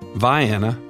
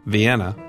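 First: The name is said in a Southern local pronunciation. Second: The name is said in the usual standard pronunciation. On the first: This is how the Georgia town's name is said. The speaker calls it right. "it's pronounced a distinctly southern way" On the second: This is how the European city's name is said. The speaker calls it wrong.

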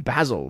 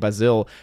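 First: It is said like the usual name Basil. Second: It is said like the word Brazil. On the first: "it also reminds me of the name Basil" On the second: "it's spelled almost like Brazil, which is why I think Basil"

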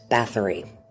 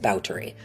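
First: The name has its common English pronunciation. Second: The name has its older native pronunciation. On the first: "You've probably heard it pronounced as Bathory. That's what most people say" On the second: "the proper period pronunciation is Bathory"

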